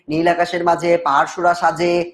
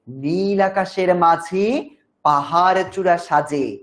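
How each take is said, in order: First: It is read in a flat, plain way. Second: It is read expressively, like a recitation.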